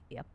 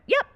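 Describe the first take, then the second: First: It sounds curt and annoyed. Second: It sounds light and friendly. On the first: The sender seems mad at the reader. "But I read it and it's like" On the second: It is just a plain yes. "in her head, she's going"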